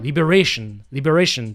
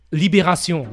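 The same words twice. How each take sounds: First: Liberation said the English way, lib-er-AY-shun; English pronunciation. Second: Liberation said the French way, lee-bay-rah-SYON with a uvular r; French pronunciation. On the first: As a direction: anglicise Liberation, English r and -ation ending. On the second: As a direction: say Liberation as a French speaker would, nasal final on. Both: Shown as a demonstration. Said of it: "if I have to pronounce it in English".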